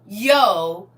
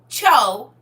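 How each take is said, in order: First: The word begins with a plain y sound. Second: The word begins with a ch sound. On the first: The speaker calls it wrong. "excuse me" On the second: The speaker calls it right. "it's cho like C H O"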